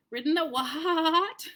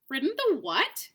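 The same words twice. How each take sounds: First: Slow, whinnying horsey take; neighing horse. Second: Scornful, incredulous sneer; mock the very idea of a donkey; contemptuous. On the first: Shown as a demonstration. Narrator tries the horse's contemptuous neigh. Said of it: "I can't neigh very well". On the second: A narrator's reading. Horse sneering at the boy with contempt. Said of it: "retorted the horse with extreme contempt".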